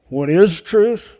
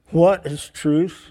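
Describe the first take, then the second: First: It sounds earnest and genuinely curious. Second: It sounds dismissive and indifferent. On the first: The asker truly wants to know the answer. "Really trying to figure out what truth is" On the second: The asker doubts the answer even matters. "Does it even matter?"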